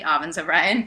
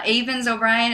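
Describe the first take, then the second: First: "Avens" said with an open first vowel, AH-venz; corrected pronunciation. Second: "Avens" said with a long A, AY-venz; mispronounced name. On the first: Correcting the stranger on her name, "Avens" as AH-vunz. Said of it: "actually, Avens O'Brien". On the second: Stranger checks her name, saying "Avens" wrongly as AY-vunz. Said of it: "Avens, actually, Avens O'Brien". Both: Retold or imitated.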